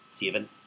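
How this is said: It is said with a New Zealand accent. It sounds cooler. "he has a New Zealand accent"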